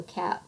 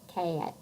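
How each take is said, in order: First: Said in the usual way. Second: CAT drawn out into two vowels, kay-at; tentative Southern "cat", gliding kay-at; Southern vowel breaking. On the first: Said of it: "So cat would become". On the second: Shown as a demonstration. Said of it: "the vowel sound is elongated into two sounds".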